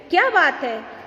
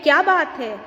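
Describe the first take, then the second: First: क्या बात है asked as a question, weight on क्या; question reading. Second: Mild exclamation, falling at the end; exclamation reading. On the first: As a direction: put क्या up front as the question word in क्या बात है. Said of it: "ये प्रश्न पूछा जा रहा है". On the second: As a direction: read it as a lightly admiring exclamation. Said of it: "इसे हम अलग तरीके से पढ़ते हैं". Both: Shown as a demonstration.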